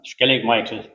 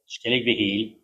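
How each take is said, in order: First: The second word sounds like English 'Michael'. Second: The second word sounds like 'Beheel'. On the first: The speaker calls it wrong. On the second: The speaker calls it right.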